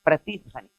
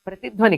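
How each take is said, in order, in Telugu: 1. రెండు భాగాలు విరామంతో విడివిడిగా ఉన్నాయి. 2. రెండు భాగాలు విరామం లేకుండా కలిసి ఉన్నాయి. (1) "విడదీసినందువల్ల ... ప్రతి ధ్వని అంటే ఎవ్రీ సౌండ్" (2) "కలిపినందువల్ల అర్థంలో మార్పొచ్చింది. ప్రతిధ్వని అంటే రిసౌండ్"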